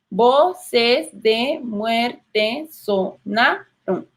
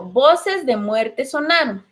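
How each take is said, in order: First: Very slow, "Voces de muerte sonaron" split into syllables. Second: Said in the usual way. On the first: Shown as a demonstration. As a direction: tap out every syllable slowly. (muy lento, separando sílabas) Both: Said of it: "No decimos sonaron".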